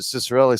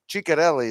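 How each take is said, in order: First: The name begins with an 's' sound. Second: The name begins with a 'ch' sound. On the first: This is how people in hockey came to say it. "over the years they just pronounced it" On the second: This is the family's original pronunciation. "the actual proper way is uh, Chic-"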